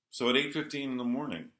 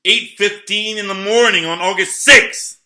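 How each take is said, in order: First: Said in the usual way. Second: Loud and much higher, rising on sixth; real outraged near-shout; worked-up shout. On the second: Real, not acted. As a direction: hammer the date out in outrage.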